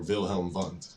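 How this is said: The name is said with a German pronunciation.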